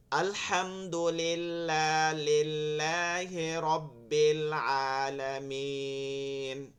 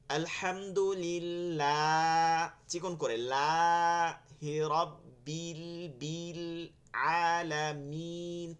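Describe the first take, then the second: First: Slow recitation with vowels bent toward e; slow, e-tinged mistaken recitation; wrong imala recitation. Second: Very slow, vowels kept thin and pure; slow, thin correct recitation. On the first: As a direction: read it the forbidden imala way. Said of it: "এমালা হয়ে যাচ্ছে". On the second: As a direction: recite it thin and straight, no imala. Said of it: "চিকন করে যাচ্ছি". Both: Shown as a demonstration.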